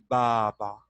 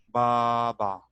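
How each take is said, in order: Both takes have the same delivery.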